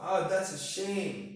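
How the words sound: It is said in a sad, sympathetic tone.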